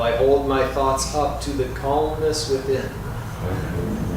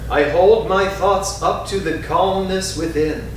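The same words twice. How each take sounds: First: It is spoken very softly and quietly. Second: It is spoken in a strong, full voice. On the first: "Softer still" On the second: "first in a strong voice"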